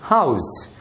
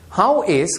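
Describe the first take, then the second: First: The words are joined into one contracted syllable. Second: Both words are said in full.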